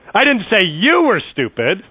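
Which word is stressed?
you. The stress falls on the word you. Someone else was called stupid. "I said your mama was stupid"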